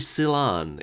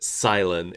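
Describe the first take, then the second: First: The second syllable sounds like 'lan'. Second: The second syllable sounds like 'len'. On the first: The speaker calls it right. "It's clearly Silan. It's short for cilantro" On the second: The speaker calls it wrong. "that's how the the English version of the anime pronounces it"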